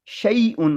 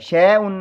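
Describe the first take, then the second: First: The first vowel glides from a to i. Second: The first vowel is a flat e sound. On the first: The speaker calls it right. "शई उन होगा" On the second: The speaker calls it wrong. "शै उन नहीं होगा"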